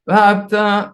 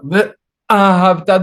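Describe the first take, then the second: First: The first syllables merge with no glottal catch. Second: A glottal catch separates the first two syllables. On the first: The speaker calls it wrong. "People say vahabta" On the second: The speaker calls it right. "No, the ahavda. Don't forget the aleph"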